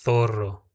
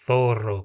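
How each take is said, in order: First: "zorro" begins with a lisped th sound. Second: "zorro" begins with a lisped th. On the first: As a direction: start "zorro" with a lisped th, tongue forward. ("zorro" com ceceio) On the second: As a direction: say "zorro" as "thorro" with the tongue between the teeth. ("zorro" com a língua presa) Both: Shown as a demonstration. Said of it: "como com a língua presa".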